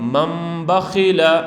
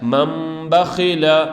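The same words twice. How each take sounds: First: An m sound is said before the b. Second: The same.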